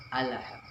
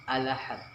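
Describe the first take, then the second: Both takes have the same delivery.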